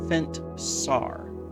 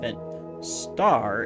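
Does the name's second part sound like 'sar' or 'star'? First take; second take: sar; star. First: The second part is said as 'sar'. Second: The second part is said as 'star'. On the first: The speaker calls it right. "It's Fent Fentsar. Yeah, that's it" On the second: The speaker calls it wrong. "It's not Fent Star"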